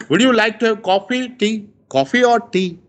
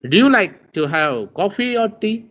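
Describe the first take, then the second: First: Coffee rising, tea falling, quick; rise then fall. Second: Coffee rising, tea clearly falling; rise then fall. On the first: Teacher playing host offering guest drinks, coffee rising, tea falling. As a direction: ask fast, pitch up on coffee, down on tea. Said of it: "when we speak coffee, we rise". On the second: Teacher repeats host's offer, rising on coffee, falling on tea. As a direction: offer the choice, let tea drop. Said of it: "when we speak tea, we fall". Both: Shown as a demonstration.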